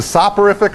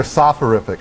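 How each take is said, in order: First: "soporific" with a hard P sound; "soporific" pronounced sop-uh-RIF-ic; P pronunciation. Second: "soporific" with an F sound for the P; "soporific" pronounced soph-uh-RIF-ic; PH pronunciation. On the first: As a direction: say "soporific" with a P after the first vowel. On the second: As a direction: say "soporific" as if spelt with PH. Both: Shown as a demonstration. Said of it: "Is it a P or P H".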